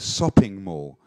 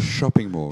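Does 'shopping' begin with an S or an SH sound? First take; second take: S; SH. First: Shopping begins with a plain S sound. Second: Shopping begins with an SH sound. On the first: "a lot of people say" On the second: "Instead of"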